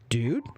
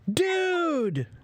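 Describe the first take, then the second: First: The word sounds worried and concerned. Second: The word sounds surprised and delighted. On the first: Are you okay? "that means, are you okay?" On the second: I'm surprised to see you. "that means, I'm surprised to see you"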